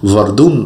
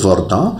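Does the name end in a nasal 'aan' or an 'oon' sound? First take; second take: oon; nasal aan. First: The name ends with a clear 'oon' sound. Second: The name ends with a nasal 'aan' sound. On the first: The speaker calls it wrong. "অনেকে এটাকে ভর্দুন উচ্চারণ করেন, সেটা কিন্তু সঠিক নয়।" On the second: The speaker calls it right. "উচ্চারণটা হবে ভর্দাঁ"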